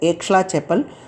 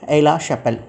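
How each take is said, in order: First: The x in the first word is sounded. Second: The x in the first word is silent. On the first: The speaker calls it wrong. "people here they pronounce it's a Aix-la-Chapelle" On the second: The speaker calls it right. "X is a silence in French"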